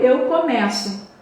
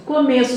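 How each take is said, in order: First: "começo" with an open e, like "é". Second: "Começo" with a closed e, the noun. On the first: Teacher showing the verb, "começo" with an open e. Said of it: "E começo de verbo". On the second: Teacher showing the noun, "Começo" with a closed e. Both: Shown as a demonstration.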